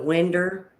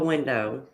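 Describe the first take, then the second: First: The word ends with an er sound. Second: The word ends with an oh sound. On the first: Older local people say it this way. "it's a winder instead of a window" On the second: This is the usual way to say it. "instead of a window"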